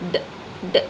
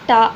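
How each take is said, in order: First: The consonant is followed by a short vowel. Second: The consonant is followed by a long vowel. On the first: The speaker calls it right. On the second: The speaker calls it wrong.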